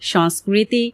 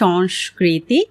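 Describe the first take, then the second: First: The hissing sound is a plain s. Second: The hissing sound is an sh. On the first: The speaker calls it wrong. "আমরা প্রায় শুনি অনেকে বলছেন" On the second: The speaker calls it right. "কিন্তু এর সঠিক উচ্চারণ হলো ... সবগুলো কিন্তু তালব্য শতে রূপান্তরিত হচ্ছে"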